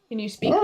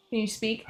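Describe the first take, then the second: First: Said in the usual way. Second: Softly coaxing the dog to speak; hushed encouragement to a dog; soft coaxing ask. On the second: Real, not acted.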